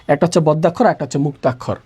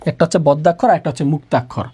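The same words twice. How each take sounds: The two takes are said the same way.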